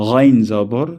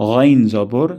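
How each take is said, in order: The two takes are said the same way.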